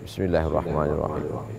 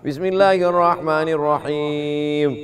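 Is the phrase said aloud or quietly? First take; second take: quietly; aloud. First: It is recited quietly, almost under the breath. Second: It is recited aloud in a clear voice. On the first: It follows the Hanafi and Hanbali schools' practice. "Menurut mazhab Hanafi dengan Hambali dibaca sir" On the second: It follows the Shafi'i school's practice. "menurut mazhab Syafi'i jahar"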